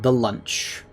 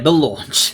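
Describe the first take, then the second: First: The vowel sounds like the one in 'lunch'. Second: The vowel sounds like the one in 'lawn'. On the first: The speaker calls it wrong. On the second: The speaker calls it right.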